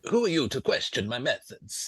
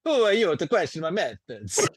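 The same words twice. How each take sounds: First: A faint hint of Italian accent; slightly Italian. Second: Higher, louder, hammed-up Italian; outlandish Italian accent. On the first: Game master voices challenged lanista, slightly Italian accent. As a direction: mostly own voice, slightly Italian colouring. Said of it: "That's gone slightly Italian there". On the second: Game master obliges player's request, outlandish Italian accent. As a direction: overdo a sing-song Italian accent. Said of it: "you could do an outlandish Italian accent".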